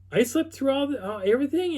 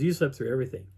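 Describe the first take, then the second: First: Very high, disbelieving pitch; astonished question. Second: Said in the usual way. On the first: Retold or imitated. Friend learning he missed the night's events, astonished question. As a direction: imitate a friend's stunned realization. Retold disbelief at sleeping through it.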